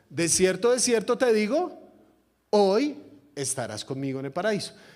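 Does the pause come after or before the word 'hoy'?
before. There is a pause just before 'hoy'.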